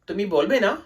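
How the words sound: It is asked as a question, rising.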